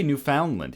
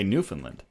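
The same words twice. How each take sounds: First: "Newfoundland" as new-FOUND-land; non-local pronunciation. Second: "Newfoundland" as NEW-fin-lind; local pronunciation. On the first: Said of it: "we don't say Newfoundland here". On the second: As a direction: reduce the middle of "Newfoundland" to "fin". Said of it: "We say". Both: Shown as a demonstration.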